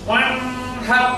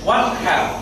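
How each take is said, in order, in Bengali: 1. n টি নাকের গুনগুনি সহ ধরে রাখা হয়। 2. n টি নাকের গুনগুনি ছাড়া স্পষ্টভাবে বলা হয়। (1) "বলা যাবে না" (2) "স্পষ্ট করে খুব তাড়াতাড়ি করে উচ্চারণ করতে হবে"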